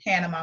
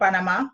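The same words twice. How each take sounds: First: The word is said with a plain American accent. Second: The word is said with a Spanish-style accent.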